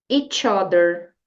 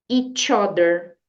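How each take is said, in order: The two takes are said the same way.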